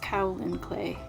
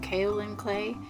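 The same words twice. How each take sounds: First: The first syllable sounds like cow. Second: The first syllable does not sound like cow. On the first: The speaker calls it right. "the K A O is pronounced like cow in cacao, and the last part is pronounced lin" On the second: The speaker calls it wrong. "I was pronouncing it the wrong way"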